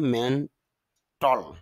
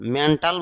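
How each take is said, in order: First: The last syllable has a reduced vowel. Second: The last syllable has a full vowel. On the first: The speaker calls it right. "IPA sound হলো মেন্টল, এজন্য মেন্টল বেশি শুদ্ধ" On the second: The speaker calls it wrong. "মেন্টাল বলতে পারি"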